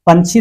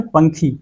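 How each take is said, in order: First: Said in the usual way. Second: पंखी with kh instead of chh; kha for chha. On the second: Shown as a demonstration. Teacher giving the Nagpuri word for bird, kh in पंखी. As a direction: say पंछी as पंखी, with an aspirated k. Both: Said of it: "ख का ही प्रयोग करना है".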